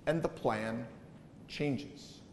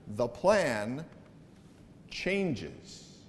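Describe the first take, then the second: First: The plan, pause, then "changes" whispered; dramatic pause. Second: Slow, hushed "changes" after a beat; dramatic pause. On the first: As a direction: pause before "changes" and breathe it. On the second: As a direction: pause before "changes", said softly. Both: Shown as a demonstration. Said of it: "Do you see what happened there?".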